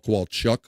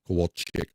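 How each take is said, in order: First: The last syllable sounds like chuck. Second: The last syllable sounds like chick. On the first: "Kowalchuk or chick" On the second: "I say chick because it's a Polish thing"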